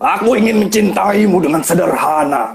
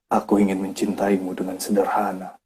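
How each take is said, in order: First: It is read angrily with a loud voice. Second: It is read calmly with deep feeling. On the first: The speaker calls it wrong. "dimarah-marahkan ... vokal yang kencang" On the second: The speaker calls it right. "dibawain dengan dalam"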